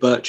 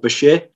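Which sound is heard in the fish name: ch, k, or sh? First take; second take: ch; sh. First: The name is said with a ch sound. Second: The name is said with an sh sound. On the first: This is the usual British form of the name. "In the UK, birch is also used a lot" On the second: This is the original form of the name. "if we want the original name, it'd be pronounced something along the lines of"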